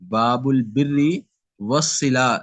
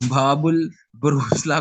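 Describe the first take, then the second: First: The second word is 'birri', then a separate 'wassila'. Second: The second word starts with 'bur', run together. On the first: The speaker calls it right. "ऐसे नहीं पढ़ना बल्कि" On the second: The speaker calls it wrong. "इसको बहुत सारे लोग गलत भी पढ़ देते हैं"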